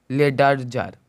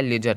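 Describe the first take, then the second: First: लेडरजर with a spelled-out D, leh-dur-jur; wrong pronunciation with D. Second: लेजर said leh-jur, no D; correct silent D. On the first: Teacher shows students the mistaken sounding of D. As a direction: say लेडरजर as a deliberately wrong take. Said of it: "लेडरजर नहीं निकला है". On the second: Teacher confirms the right form to students, silent D. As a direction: say लेजर plainly with the D dropped. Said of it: "लेजर निकला है". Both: Shown as a demonstration.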